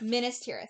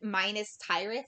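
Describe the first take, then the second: First: The first word does not sound like 'minus'. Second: The first word sounds like the word 'minus'. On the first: The speaker calls it right. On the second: The speaker calls it wrong.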